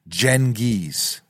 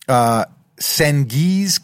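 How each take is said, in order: First: The first sound is a J sound. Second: The first sound is not a J sound. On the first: The speaker calls it right. "The C is pronounced as a J, so phonetically" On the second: The speaker calls it wrong. "so I did not pronounce it right. I butchered it"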